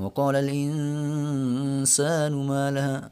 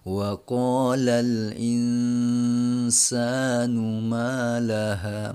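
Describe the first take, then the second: First: It is recited fast but the nasal is held long. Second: It is recited slowly with an evenly held nasal. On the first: "tempo bacanya Al-Qur'annya cepat malah uh, dengunya lama banget" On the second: "baca Qur'annya selo atau standar gitu kan"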